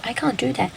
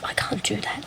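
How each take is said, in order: First: Said in the usual way. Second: Whispered to self. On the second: Retold or imitated. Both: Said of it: "And I'm just like".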